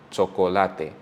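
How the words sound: The word is said with Spanish vowel sounds. "In Spanish, it will be chocolate"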